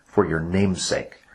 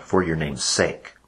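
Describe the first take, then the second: First: Slow phrase with "name's" given the main accent; "name's" stressed over "sake". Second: Slow phrase with the accent landing on final "sake"; "sake" stressed over "name's". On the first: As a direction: lean on "name's", let "sake" follow lightly. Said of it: "because the accent comes on". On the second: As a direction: lean on the last word, "sake". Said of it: "accent comes on the last note". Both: Shown as a demonstration.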